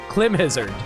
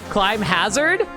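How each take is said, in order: First: The first word has a short i, like him. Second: The first word has a long i, like climb. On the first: "Or is it clim" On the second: "do you pronounce it as climb? Like climbing something?"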